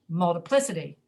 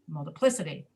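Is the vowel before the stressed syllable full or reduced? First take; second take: reduced; reduced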